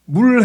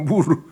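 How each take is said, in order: First: The word ends in an L sound, one syllable. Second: The word ends with an added vowel, two syllables. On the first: The speaker calls it right. "물 해야 되는데" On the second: The speaker calls it wrong. "L 발음을 못 해가지고 무르 그래요"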